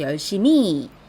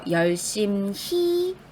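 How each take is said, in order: First: The m links on and the h is dropped. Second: The h sound is clearly pronounced. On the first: The speaker calls it wrong. "받침 미음을 그대로 뒤로 연결해서" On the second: The speaker calls it right. "히읗을 제대로 발음해 주셔야 돼요"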